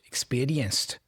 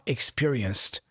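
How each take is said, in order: First: The R is flapped. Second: The R is plain, not flapped. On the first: "the R being flapped. Experienced" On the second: "not experienced"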